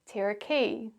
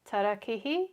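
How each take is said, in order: First: It is said with English sounds and patterns. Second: It is said with Māori sounds and vowels. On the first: "the anglicised version" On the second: "the Māori pronunciation"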